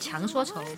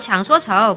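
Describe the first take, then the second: First: The first syllable has a rising tone. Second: The first syllable has a low dipping tone. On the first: The speaker calls it wrong. "不是强说愁" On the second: The speaker calls it right. "我妈老纠正我，抢说愁"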